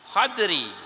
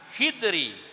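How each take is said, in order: First: An 'a' after kh, no vowel after d. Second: An 'i' after kh, no vowel after d. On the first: "fathah kha ... atau sukunnya dad" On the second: "di kasrah kha beserta sukun dad"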